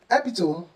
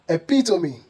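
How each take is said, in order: First: The word has three syllables. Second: The word has four syllables. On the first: The speaker calls it wrong. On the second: The speaker calls it right. "making these words four syllables instead of three"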